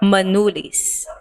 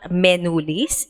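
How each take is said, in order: First: The first vowel sounds like 'uh'. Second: The first vowel sounds like 'eh'. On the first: The speaker calls it right. "it's uh" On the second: The speaker calls it wrong. "Their letter E is not eh"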